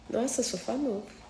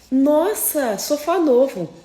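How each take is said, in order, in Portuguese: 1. Soa crítica e desaprovadora. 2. Soa carinhosa e admirada. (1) "Quem não gosta?" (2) "quem gosta de você, ela vai falar assim"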